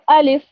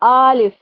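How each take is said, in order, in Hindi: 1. दोनों स्वर छोटे और तेज़ होते हैं। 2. पहले स्वर को लंबा खींचा जाता है। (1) "सही तरह से प्रोनाउंस" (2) "आ को खींच देते हैं, आलिफ करते हैं"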